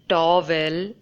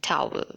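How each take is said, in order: First: The voice does not drop at the end. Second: The voice drops low at the end. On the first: The speaker calls it wrong. "I used to pronounce this word as towel" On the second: The speaker calls it right. "Just just lower your voice towards the end"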